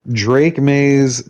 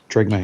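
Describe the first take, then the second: First: The name is said as two distinct words. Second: The name is run together like one word.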